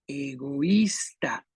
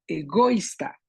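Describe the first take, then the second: First: "egoísta" slow and low, leaning on the Í; stress on Í. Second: "egoísta" as e-GÓ-ista, second syllable stressed. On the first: Teacher offering stress options, "egoísta" slowly stressed on Í. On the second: Teacher offering stress options, "egoísta" wrongly stressed on GO. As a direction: shift the stress of "egoísta" onto GO. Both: Shown as a demonstration. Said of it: "la segunda, la tercera".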